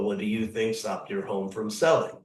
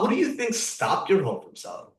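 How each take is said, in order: First: The question is said flatly, without much tone. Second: The question is said warmly, with engaging tone. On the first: The speaker calls it wrong. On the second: The speaker calls it right.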